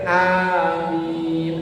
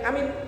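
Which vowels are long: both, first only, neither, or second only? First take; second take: both; neither. First: Both the first and second vowels are long. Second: Both the first and second vowels are short. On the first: "A-nya panjang, M-nya panjang" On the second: "dua-duanya pendek"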